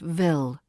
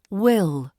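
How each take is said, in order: First: It begins with a v sound. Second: It begins with a w sound. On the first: The speaker calls it wrong. "not vil" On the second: The speaker calls it right.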